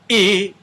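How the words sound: The vowel starts with a hard glottal catch. "they're not crashing together like"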